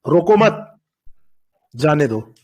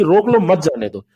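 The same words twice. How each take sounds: First: "रोको मत" joined and rising, long pause, then lower "जाने दो"; "रोको मत … जाने दो" split after "मत"; comma after मत. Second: "रोक लो" as one group, then "मत जाने दो" together, falling; "रोक लो, मत जाने दो" split before "मत"; comma before मत. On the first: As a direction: attach "मत" to "रोको", break, then drop on "जाने दो". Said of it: "कॉमा उठा के यहाँ पे कर दीजिए". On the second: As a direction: keep "मत" joined to "जाने दो", stressing "मत". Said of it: "और यहाँ मतलब क्या है". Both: Shown as a demonstration.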